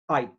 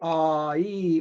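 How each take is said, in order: First: The vowel glides as one single sound. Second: The vowel is split into two separate sounds. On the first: The speaker calls it right. "we say I. It's one sound" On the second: The speaker calls it wrong. "we don't say ah, E"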